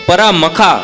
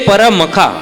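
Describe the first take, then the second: Both takes have the same delivery.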